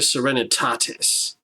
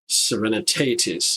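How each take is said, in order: First: It is pronounced in a Latin-like way. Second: It is pronounced in an English-like way.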